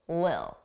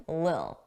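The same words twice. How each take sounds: First: The middle consonant is dropped entirely. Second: The same.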